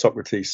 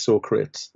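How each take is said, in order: First: Said in the usual way. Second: Socrates said in two syllables, like 'so-crates'; Bill and Ted mispronunciation. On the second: Retold or imitated. Friend quoting a funny film moment, Socrates mispronounced as 'so-crates'. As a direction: rhyme the end of Socrates with 'crates', quoting the film blunder. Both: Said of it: "when they pronounce Socrates".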